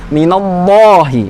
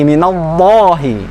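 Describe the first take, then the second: The two takes are said the same way.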